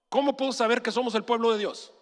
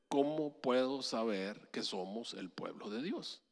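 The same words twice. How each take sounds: First: The question is rushed out quickly. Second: The question is said slowly. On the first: "me pregunta así atropelladamente" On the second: "Te lo voy a decir más lento"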